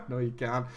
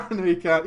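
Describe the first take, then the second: First: Низкий невозмутимый отказ; deadpan low refusal. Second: Said in the usual way. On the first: Retold or imitated.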